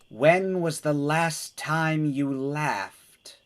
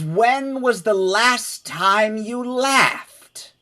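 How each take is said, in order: First: It is said quietly. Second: It is said loudly.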